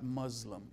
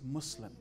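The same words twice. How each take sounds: First: The middle consonant sounds like a z. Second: The middle consonant is a clear s. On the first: It means tyrant in Arabic. The speaker calls it wrong. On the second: It means one who has surrendered. The speaker calls it right.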